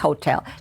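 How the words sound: The word is said with an English pronunciation. "in English it's hotel"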